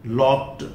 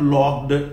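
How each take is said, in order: First: The ending is a plain 't' sound. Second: The ending is an extra 'id' syllable. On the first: The speaker calls it right. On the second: The speaker calls it wrong.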